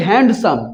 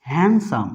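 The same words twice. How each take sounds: First: হ্যান্ডসাম with the D sounded, hand-sum; wrong pronunciation. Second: হ্যান্ডসাম with no D, han-sum, lower pitched; correct pronunciation. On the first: Teacher shows our common mistake, D heard in হ্যান্ডসাম. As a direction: voice a clear D in the middle of হ্যান্ডসাম. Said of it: "ভুল উচ্চারণ করে থাকি". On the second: Teacher answers how it should sound, silent D in হ্যান্ডসাম. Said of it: "এর উচ্চারণটা কি হবে?". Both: Shown as a demonstration.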